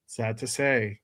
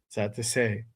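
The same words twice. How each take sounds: The two takes are said the same way.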